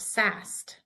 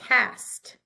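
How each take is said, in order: First: The word begins with a soft S sound. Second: The word begins with a hard K sound. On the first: The speaker calls it wrong. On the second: The speaker calls it right. "We say"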